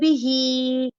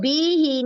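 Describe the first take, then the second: First: The second vowel is drawn out long. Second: The first vowel is drawn out long. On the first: The speaker calls it right. "बिही हा दो हरकत जितना खींचेगा, बा नहीं" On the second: The speaker calls it wrong. "इसको बी ही नहीं पढ़ देना, बा को लंबा करने की कोई वजह नहीं है"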